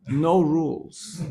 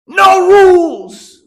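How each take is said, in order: First: Said in the usual way. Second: High, drawn-out full-force scream; screamed slogan. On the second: Retold or imitated. Speaker imitates hippie lady running out, screaming. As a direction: scream it out long, pitch way up. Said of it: "and she screamed".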